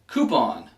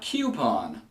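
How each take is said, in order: First: It begins with a plain 'koo' sound. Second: It begins with a 'kyoo' sound, like letter Q. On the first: The speaker calls it right. "It's a coo sound, like chicken coop or Cool Whip" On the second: The speaker calls it wrong. "There is no Q in this word"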